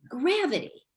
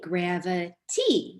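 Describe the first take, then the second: First: The stress is on the first syllable. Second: The stress is on the last syllable. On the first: It is the normal way of saying the word. The speaker calls it right. "you say gravity" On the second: It is forced to rhyme with the letter C. The speaker calls it wrong. "you don't say gravity"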